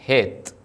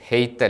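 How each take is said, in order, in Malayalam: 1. ഈ സ്വരം ലളിതമായ ദീർഘ e ആണ്. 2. ഈ സ്വരം ey പോലെ വഴുതിപ്പോകുന്നു. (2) "ഹെയ്ത്ത് അല്ല"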